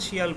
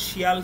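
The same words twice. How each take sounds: No difference in how they are said.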